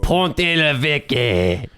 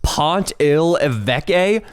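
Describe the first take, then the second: First: Very slow, drawn-out fake French; mock French accent. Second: "Pont il Évêque" slowly, word by word in an American accent; spelled-out American reading. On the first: Reading French cheese names for jokes, drawn-out mock French accent. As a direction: stretch the cheese name in hammy French. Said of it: "names of some obscure French cheeses". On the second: Shown as a demonstration. Puzzling over French spelling, "Pont il Évêque" sounded out slowly American-style. Rereads the cheese name off screen.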